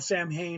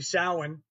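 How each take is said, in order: First: The middle is said with M and H sounds. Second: The middle is said with a W sound. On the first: The speaker calls it wrong. "not Samhain" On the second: The speaker calls it right. "It's actually Samhain"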